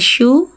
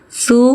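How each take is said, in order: First: The first sound is an sh. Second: The first sound is a plain s. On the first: The speaker calls it wrong. "Jangan syu, jangan tengah lidah" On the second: The speaker calls it right. "ujung lidah di ujung gigi seri atas letakkan"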